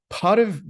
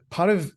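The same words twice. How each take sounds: The two takes are said the same way.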